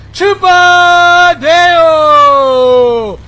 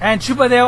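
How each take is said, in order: First: "Chupa Deo" stretched very long, much louder and higher; drawn-out name call. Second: Said in the usual way. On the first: Shown as a demonstration. Streamer relishing saying an enemy player's name, drawn-out call. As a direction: savour "Chupa Deo", dragging out every sound. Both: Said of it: "I just really enjoy saying your name".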